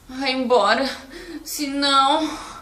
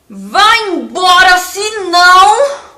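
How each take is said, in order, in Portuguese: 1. É dito com uma voz cansada, exausta. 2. É dito com uma voz brava, ameaçadora. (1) "senão cansado" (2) "Como que você falaria essa frase bravo?"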